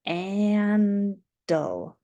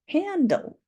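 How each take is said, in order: First: Said in the usual way. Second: Bright confirming high. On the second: Shown as a demonstration. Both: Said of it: "Hand on our chin".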